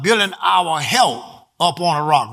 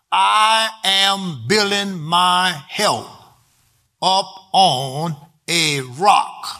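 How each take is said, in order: First: Said in the usual way. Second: Very slow, word-by-word delivery; slow, deliberate statement to be written down; slow dictation. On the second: Shown as a demonstration. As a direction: dictate it for note-takers, spacing out each word. Write that down.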